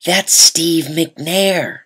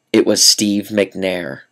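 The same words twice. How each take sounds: First: Slow, higher mom voice, proudly naming him; drawn-out, know-it-all mom; mom showing off. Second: Said in the usual way. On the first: Retold or imitated. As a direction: mom showing off her sports knowledge to her son. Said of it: "she wanted to show off her sports knowledge too and said". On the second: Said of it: "Okay, now I was certain".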